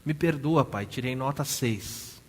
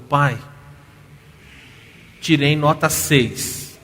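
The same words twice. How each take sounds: First: Sobbing apology. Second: Loud, slow, tearful retold plea; crying plea. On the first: Retold or imitated. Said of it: "soluçando". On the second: Daughter confessing a bad grade to her father, loud tearful plea. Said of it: "A filha tá chorando".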